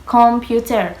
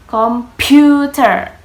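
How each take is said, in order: First: Falling, stress on the first syllable of Computer; pronunciation demo. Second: Computer slow, loud, falling, every syllable clear; slow emphatic demo. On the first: Student models Computer for classmates. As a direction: say Computer firmly with a falling tune. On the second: Student models computer loudly for the class. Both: Shown as a demonstration.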